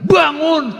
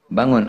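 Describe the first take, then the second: First: It is said harshly, like a shout. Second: It is said softly and gently. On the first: The questioner treats the dead person roughly. "Dibentak-bentak nanyanya" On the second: The questioner treats the dead person kindly. "nanyanya dalam kuburan pelan"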